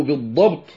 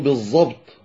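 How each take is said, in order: First: بالضبط with a true emphatic ض; proper heavy ض in بالضبط; correct Dad. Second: بالضبط said as "bez-zabt"; Dad as Za. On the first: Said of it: "وبدل أن يقولوا". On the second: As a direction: say بالضبط wrongly with an emphatic Z. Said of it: "ينطقون الضاد ظاء". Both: Shown as a demonstration.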